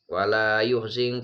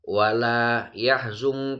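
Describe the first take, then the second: First: The verb is read yuhzinka, with u then i. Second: The verb is read yahzunka, with a then u. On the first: "den waca dumah yae wa kasri zai" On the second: "den waca fathaya wa dhammi zai"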